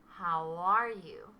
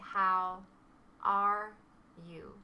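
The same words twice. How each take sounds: First: The words run together like one sound. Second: Each word is said separately and distinctly. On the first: "native speakers say something more like, ... We connect the sounds together" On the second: "Most non-native speakers would say"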